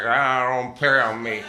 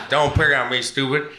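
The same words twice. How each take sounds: First: Put-on slow "don't pick on me" in a Philly accent. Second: Put-on louder, laughing "pick on me, stupid" in a Philly accent. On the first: Imitating friend Keith's Philly accent, slow and whiny. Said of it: "That's just his accent". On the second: Imitating friend Keith's Philly accent, laughing and louder. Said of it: "And Keith's like".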